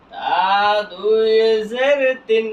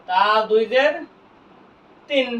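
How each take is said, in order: First: Letter names stretched long and joined up; slow model spelling for learners; drawn-out spelling recitation. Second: Said in the usual way. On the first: Shown as a demonstration. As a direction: hold দুই and জের long as you spell. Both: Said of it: "বানান করলাম কি?".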